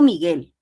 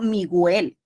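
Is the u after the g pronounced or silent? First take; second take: silent; pronounced. First: The u after the g is silent. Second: The u after the g is pronounced. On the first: The speaker calls it right. "porque yo no escucho la U. Yo digo Miguel" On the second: The speaker calls it wrong. "Yo no digo Miguel"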